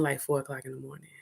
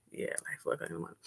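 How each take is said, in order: First: Said in the usual way. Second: A hushed, quick confiding whisper; whispered aside. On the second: Real, not acted. Repeating the late hour to the audience, whispered. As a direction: whisper it, much softer and fast.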